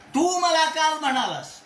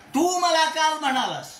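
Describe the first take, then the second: First: The stress falls on the word तू. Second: The stress falls on the word तू.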